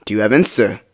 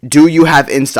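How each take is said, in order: First: Said in the usual way. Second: Louder, emphatic retold question; all-caps demand. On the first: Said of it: "So I asked again". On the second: Asking her one more time over Snapchat, all-caps demand. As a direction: hit each word like typing in caps. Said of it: "I put in all caps".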